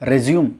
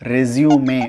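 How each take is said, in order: First: The word ends with an 'm' sound. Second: The word ends with an 'ay' vowel. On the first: The speaker calls it wrong. "நம்ம எல்லாரும் அதை pronounce பண்ணுறது" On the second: The speaker calls it right. "உண்மையான pronunciation என்ன அப்படின்னா ரெஸ்யூமே"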